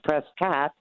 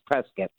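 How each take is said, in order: First: The last syllable sounds like 'cot'. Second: The last syllable sounds like 'kit'. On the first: The speaker is from California. "if it's California" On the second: The speaker is from Arizona. "If you're from Arizona, / It's like biscuit"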